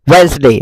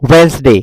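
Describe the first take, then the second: First: The middle 'd' is silent, giving two syllables. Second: The middle 'd' is silent, giving two syllables.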